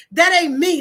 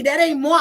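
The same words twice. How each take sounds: First: Said in the usual way. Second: "moi" said the French way, /mwa/, as a joke; playful French moi. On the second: Shown as a demonstration. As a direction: swap in "moi" with a light mock French sound.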